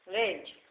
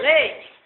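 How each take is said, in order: First: Said in the usual way. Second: "Leite" squeaked very high and loud, falling at the end; high call. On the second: Pretend. Calling the child Leite. ("Leite" chamado bem agudo e alto)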